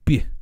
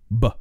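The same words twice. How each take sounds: First: The tongue presses the hard palate during B. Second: A plain B with a neutral tongue. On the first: "That effect is called palatalization" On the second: "make a B sound"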